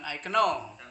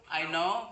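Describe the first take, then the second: First: "know" misread as "ke-no"; sounded K in know. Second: "know" said as "no", K silent; "I know" pronounced "ai no". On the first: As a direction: wrongly pronounce the K in "know". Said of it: "bacanya bukan". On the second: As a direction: drop the K from "know". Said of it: "bacanya bukan I know". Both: Shown as a demonstration.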